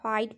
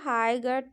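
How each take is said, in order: First: The 'gh' is silent. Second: The 'gh' is sounded as a 'g'. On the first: The speaker calls it right. "आप हाइट पढ़िए, उसमें जी एच silent रहता है" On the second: The speaker calls it wrong. "हाई गट नहीं पढ़ पढ़ सकते हैं"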